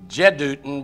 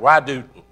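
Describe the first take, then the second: First: The name begins with a J sound. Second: The name begins with a Y sound. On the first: "in the English language, is Jedutun" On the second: "but you pronounce it with a Y"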